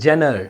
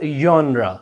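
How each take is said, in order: First: It begins with a 'j' sound, like 'jener'. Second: It begins with a 'y' sound, like 'yonra'. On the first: The speaker calls it wrong. "This is not जेनर। इसको भी गलत pronounce करते हैं लोग।" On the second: The speaker calls it right. "This is called योनरा"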